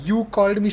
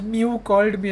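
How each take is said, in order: First: Said in the usual way. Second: "Mew" said in place of "You", a cat's mew; mispronounced you. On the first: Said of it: "instead of saying". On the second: Retold or imitated. Flustered girl says "Mew" instead of "You" to her friend. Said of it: "she says".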